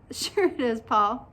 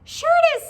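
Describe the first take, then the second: First: Said in the usual way. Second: Very high, loud squeak; high-pitched cartoon insistence; little pigtail voice. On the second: A narrator's reading. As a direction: squeak it brightly as a tiny talking pigtail. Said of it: "said the pigtail".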